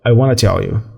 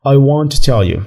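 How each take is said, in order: First: 'Want to' is blended quickly into 'wanna'. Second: Each word of 'want to' is said separately. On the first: "لما نكون بنتكلم بسرعة بنتكلم في الكلام العادي خالص" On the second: "ده الشكل المكتوب منها"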